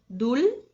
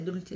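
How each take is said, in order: First: The word is said slowly. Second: The word is said quickly. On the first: "a gente começa fazendo devagar, bem devagar" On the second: "a gente vai e acelera aos poucos"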